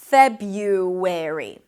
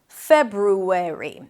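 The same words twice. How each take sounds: First: A Y sound follows the B. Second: An R sound follows the B. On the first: "drop actually the first R and pronounce it as Feb-u with a Y instead" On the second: "then ru, an R sound and a tense U"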